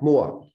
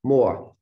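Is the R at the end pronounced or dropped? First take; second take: dropped; dropped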